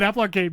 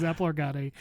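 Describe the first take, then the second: First: Said in the usual way. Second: "Arcade" said as ar-ga-DAY, Spanish style; "Arcade" with a Spanish ar-ga-DAY ending. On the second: Shown as a demonstration. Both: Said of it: "Not Spanish".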